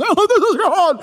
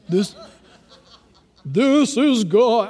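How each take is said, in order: First: High, loud, hammed-up TV deity; God on TV. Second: Slow, drawn-out mock voice of God. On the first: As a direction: boom it out like a cheesy TV God. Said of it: "those T V shows make us". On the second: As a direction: stretch it out like a hammed-up God. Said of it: "I don't think God talks like that".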